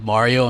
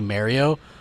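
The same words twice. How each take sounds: First: The name has a native Italian pronunciation. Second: The name has an exaggerated, cartoonish pronunciation. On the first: The speaker calls it right. "if my name was Mario" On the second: The speaker calls it wrong. "people were calling me Mario"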